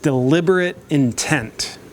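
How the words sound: It is said in a stern, harsh tone.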